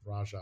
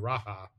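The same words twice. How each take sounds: First: The middle consonant sounds like an English j. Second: The middle consonant sounds like an h. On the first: The speaker calls it right. "I think Raja is more" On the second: The speaker calls it wrong. "I keep wanting to say Raja ... association with Spanish pronunciation"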